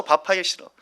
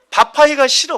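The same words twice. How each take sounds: First: Said in the usual way. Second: Louder, higher whine stretching 밥하기가 as a sulky moan; mock the wife's cooking complaint with a whine; whiny complaint. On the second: Wife complaining about cooking in the heat, loud mock whine.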